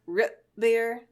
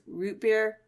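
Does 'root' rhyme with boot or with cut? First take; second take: cut; boot. First: Root has a short vowel, like rut. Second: Root has the usual long oo vowel.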